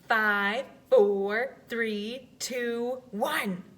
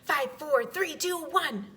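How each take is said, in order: First: The countdown is a little faster. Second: The countdown is very fast.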